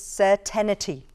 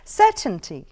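First: It is said with four syllables, adding an extra vowel. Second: It is said with three syllables, no extra vowel. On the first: The speaker calls it wrong. "The mispronounced is certainty" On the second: The speaker calls it right. "the correct pronunciation would be certainty"

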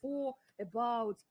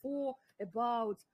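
First: The two words are said separately with a break. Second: The two words are said separately with a break.

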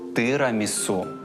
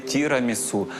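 First: The first vowel is a lax 'ih' sound. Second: The first vowel is a tense 'ee' sound. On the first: The speaker calls it right. "а тирамісу" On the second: The speaker calls it wrong. "ніяке не тірамісу"

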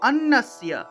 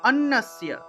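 Both takes have the same delivery.

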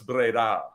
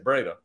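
First: It is said the local way. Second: It is said the usual English way. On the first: The speaker calls it right. "no, it's Breda" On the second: The speaker calls it wrong. "I would always say Breda"

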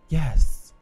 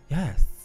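First: It is said in a slow, breathy, sultry voice. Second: It is said in a knowing, matter-of-fact way. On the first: She is flirting with him. "in the sexy voice, right? The sexy slooty voice" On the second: Of course she is insured. "like she knows, like, "Duh, I'm insured.""

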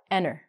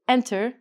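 First: The T sound is dropped after the N. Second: The T sound is clearly pronounced. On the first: The speaker calls it right. "we say enter" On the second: The speaker calls it wrong. "We don't say enter"

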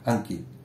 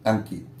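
No difference in how they are said.

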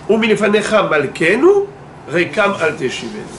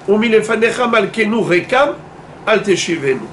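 First: There is no pause after rekam. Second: There is a pause after rekam.

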